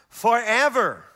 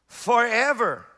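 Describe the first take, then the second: Both takes have the same delivery.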